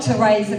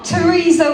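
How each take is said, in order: First: The middle vowel sounds like 'ay'. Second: The middle vowel sounds like 'ee'. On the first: The speaker calls it wrong. "not Teresa with an A" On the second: The speaker calls it right. "Teresa with an E"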